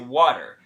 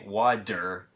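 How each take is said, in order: First: The middle sound is a quick tongue flap. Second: The middle sound is a full, hard D. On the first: The speaker calls it right. "We say water ... we call that a flap" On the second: The speaker calls it wrong. "We don't say water. Okay, that sounds weird even to an American"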